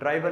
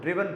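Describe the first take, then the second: First: The first vowel is long, like 'eye'. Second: The first vowel is short, like 'ih'. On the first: The speaker calls it wrong. "ड्राइवन नहीं पढ़ते हैं" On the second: The speaker calls it right. "इसको ड्रिवन पढ़ते हैं"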